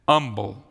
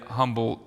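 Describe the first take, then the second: First: The word begins with no H sound. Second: The word begins with an audible H sound. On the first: This is how the local people say the name. "They pronounced it Humble, ... the H is silent" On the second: This is the speaker's own way of saying the name. "Now that's how I would say it"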